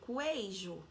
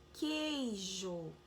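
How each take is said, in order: First: A u sound is heard after the k. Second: No u sound is heard after the k. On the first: The speaker calls it wrong. "Mas eu tô falando U, eu falo queijo? Não" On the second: The speaker calls it right. "eu falo queijo"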